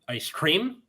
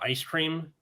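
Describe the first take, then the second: First: The stress falls on an unusual syllable. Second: The stress falls in the usual place. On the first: The speaker calls it wrong. "they're putting emphasis on the wrong word" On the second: The speaker calls it right. "instead of ice cream"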